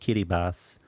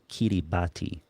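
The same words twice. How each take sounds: First: The final syllable is said with an s sound. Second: The final syllable is said with a t sound. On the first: This is how the name is actually pronounced. "It's pronounced Kiribati, ... A T I in their language makes an S sound" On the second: This is how the name looks when written. "but it's spelled Kiribati"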